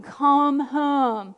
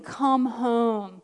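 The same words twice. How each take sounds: First: Mild, drawn-out imitation of yelling; retold yell. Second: Drawn-out call in her usual pitch; retold calling. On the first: Jesus yelling from the gate, mild retold yell. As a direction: call out a little more firmly, stretching both words. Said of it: "He was yelling". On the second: Retelling Jesus at the gate, drawn-out call. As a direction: call them home, holding each word. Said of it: "Jesus standing at the gate saying".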